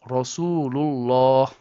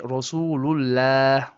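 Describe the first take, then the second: First: The L in Allah sounds heavy and full-mouthed. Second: The L in Allah sounds flat and light. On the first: The speaker calls it right. "No, it's" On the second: The speaker calls it wrong. "So you do not say"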